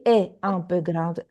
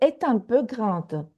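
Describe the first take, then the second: First: Est and un are said apart, unlinked. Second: The T of est links into un. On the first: The speaker calls it wrong. "We don't say est un peu grande" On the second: The speaker calls it right. "we have liaison after the vo- vowel"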